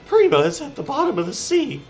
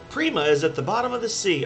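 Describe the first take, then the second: First: It is read in a put-on character voice. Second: It is read in the speaker's ordinary voice.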